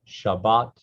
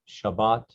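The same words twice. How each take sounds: Both takes have the same delivery.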